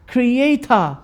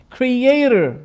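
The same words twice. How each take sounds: First: "creator" in an English accent, final r dropped; drawn-out, high English-accented "creator". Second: "Creator" with an American r at the end; American pronunciation, r sounded at the end of "Creator"; American accent. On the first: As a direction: say "creator" slowly as the English do, ending in "ah". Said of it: "You know the English accent". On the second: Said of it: "in American accent". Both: Shown as a demonstration.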